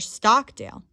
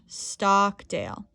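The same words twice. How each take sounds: First: Stockdale is said noticeably louder than the rest. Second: The vowel in Stockdale is drawn out longer. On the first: "You can say the word louder" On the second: "you can elongate the vowel sound"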